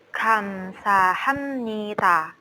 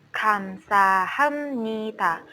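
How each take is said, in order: The two takes are said the same way.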